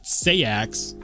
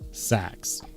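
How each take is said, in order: First: It is said as two syllables. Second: It is said as one short syllable.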